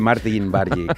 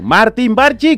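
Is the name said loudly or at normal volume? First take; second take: normal volume; loudly. First: The name is said at normal volume. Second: The name is said loudly.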